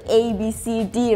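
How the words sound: The letters are named the English way. "usually it will be like"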